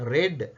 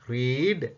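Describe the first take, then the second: First: The vowel is short, like in 'red'. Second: The vowel is long, like in 'reed'. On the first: It is the past tense form. "இறந்த காலத்துல ரெட் ரெட் என்று வரும்" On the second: It is the present tense form. "Pronunciation உச்சரிப்பு ... வித்தியாசம் பாருங்க"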